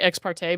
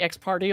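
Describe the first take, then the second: First: The second word does not end like party. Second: The second word ends like party. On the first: "so I would say ex parte" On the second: "now I say ex party all the time"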